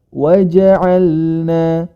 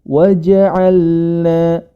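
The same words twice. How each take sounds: The two takes are said the same way.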